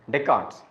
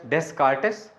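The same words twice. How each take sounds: First: The name is said with the s and t silent. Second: The name is read with every letter sounded. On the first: The speaker calls it right. "pronounced as" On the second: The speaker calls it wrong. "wrote as"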